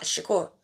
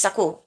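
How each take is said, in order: First: Soft Shakur opening on 'sh'. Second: Shakur starting on a plain 's'; Shakur without the H. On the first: Practising the pronunciation of his surname, Shakur with a 'sh'. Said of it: "I'll say it with the sh". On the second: Practising the pronunciation of his surname, Shakur said as 'Sakur'. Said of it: "It's without the H". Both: Shown as a demonstration.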